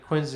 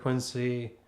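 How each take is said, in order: First: It is said with the local Massachusetts pronunciation. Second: It is said as the spelling suggests. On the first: This is how locals say the name. "they say Quincy" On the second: This is how outsiders read the name. "instead of Quincy"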